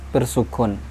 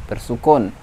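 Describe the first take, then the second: The two takes are said the same way.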